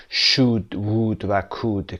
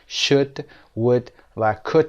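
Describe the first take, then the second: First: "should، would و could" with a long oo as in food and no L; mispronounced "should، would و could", rhyming with food; wrong long vowel. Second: "should، would و could" with no L and a short oo as in good; silent L, short vowel. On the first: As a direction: stretch the vowel in "should، would و could" to shooed, wooed, cooed. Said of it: "که بلند هستند". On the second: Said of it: "حرف ل تلفظ نمیشه و به این شکل". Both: Shown as a demonstration.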